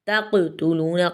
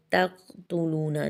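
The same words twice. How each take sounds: First: तक़तुलूना with the qaf bounced and echoed; qalqala on qaf. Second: तक़तुलूना read with a soft, unbouncing qaf; wrong reading. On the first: Teacher shows students the correct qalqala in तक़तुलूना. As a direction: make the qaf in तक़तुलूना jolt clearly. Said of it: "क़ाफ को अच्छे से हिलाना है". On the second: Teacher shows students the wrong way to read तक़तुलूना. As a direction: say तक़तुलूना lightly, without the echo on qaf. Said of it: "इसको ऐसे नहीं पढ़ना हमने". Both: Shown as a demonstration.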